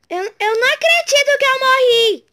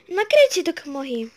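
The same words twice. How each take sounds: First: Higher, louder outburst; raging gamer. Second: Said in the usual way. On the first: Real, not acted. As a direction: yell it in disbelief.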